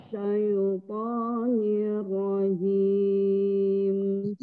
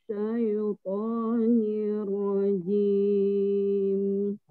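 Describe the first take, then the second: No difference in how they are said.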